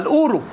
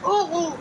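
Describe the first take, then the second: First: The r is a clear, rolled Egyptian sound. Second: The r is a guttural, French-style sound. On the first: This is how it is said in Egypt. "ما عندنا في مصر الراء مستقيمه" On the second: This is how it is said in France. "الاوغو دي عندكم في عند برج ايفل"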